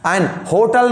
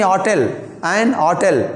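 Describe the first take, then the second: First: "एन होटल" said with a clear H at the start of "होटल"; hotel with H sounded. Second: "होटल, एन होटल" slow, "होटल" starting on O with the H barely there; weak H hotel. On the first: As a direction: sound the H in "होटल" as the wrong example. ("एन होटल" में "होटल" का H साफ़ बोलें) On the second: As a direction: say "होटल" slowly, leaning on the O and dropping the H. ("होटल" धीरे से, H हल्का, ओ पर ज़ोर) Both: Shown as a demonstration. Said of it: "H को हम लोग बहुत कम स्ट्रेस रहता है".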